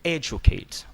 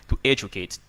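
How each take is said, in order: First: Weight the first syllable of educate; teacher repeating the stressed word. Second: Educate with the first syllable E stressed; teacher modelling stress on educate. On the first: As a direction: say educate with a strong E. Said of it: "That's the reason why I read". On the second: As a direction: hit the E of educate. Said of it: "the stress is on E". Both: Shown as a demonstration.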